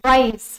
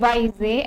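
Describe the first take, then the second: First: The word ends without any extra vowel. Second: The word ends with an extra vowel sound. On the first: The speaker calls it right. "हमेशा से आपने पढ़ा है" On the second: The speaker calls it wrong. "ऐसे नहीं पढ़ते हो"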